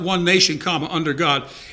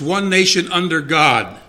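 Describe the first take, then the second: First: There is a pause after 'nation'. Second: It runs on with no pause after 'nation'.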